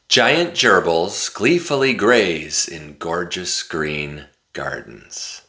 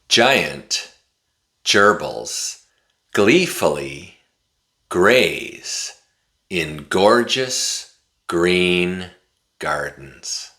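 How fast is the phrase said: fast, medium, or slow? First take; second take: fast; medium. First: It is said very fast, words run together. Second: It is said at a moderately faster pace. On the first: "this time I'm going to say it really fast" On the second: "this time I'm going to say it a little bit faster"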